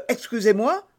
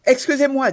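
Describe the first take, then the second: First: Mocking quote. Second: Quick, loud, high excuse-me in a rush; furious young man rushing an apology; hurried apology. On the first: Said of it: "s'écria le mousquetaire". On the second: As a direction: blurt it out while running past. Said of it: "dit D'Artagnan". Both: A narrator's reading.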